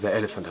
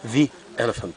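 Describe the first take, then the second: First: 'The' is said with a short 'thuh' vowel. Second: 'The' is said with a long 'thee' vowel. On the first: The speaker calls it wrong. "مش ذا اليفنت" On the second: The speaker calls it right. "هتبقى ذي اليفنت"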